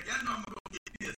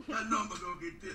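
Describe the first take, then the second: First: Plain. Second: Said in the usual way. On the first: Retold or imitated. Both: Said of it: "give me a sec".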